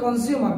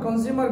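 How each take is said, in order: Both takes have the same delivery.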